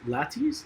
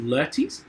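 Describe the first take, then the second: First: Laertes said LAT-eez, higher and questioning; alternative pronunciation. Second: Laertes said LUR-teez, rising like a question; questioned pronunciation. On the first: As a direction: try Laertes with an open A first. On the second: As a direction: try Laertes with an UR first vowel. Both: Shown as a demonstration. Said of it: "How do you say it".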